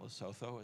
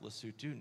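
First: The name is said the way it looks. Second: The name is not said the way it looks. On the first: The speaker calls it wrong. "not Lesotho, as it looks like it" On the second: The speaker calls it right. "pronounced Lesotho"

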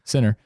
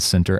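First: The word is said loosely, with sounds reduced. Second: The word is said carefully, every sound clear. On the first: "the real name and the way that you say it" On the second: "as I said that and enunciated"

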